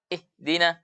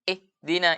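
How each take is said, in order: Both takes have the same delivery.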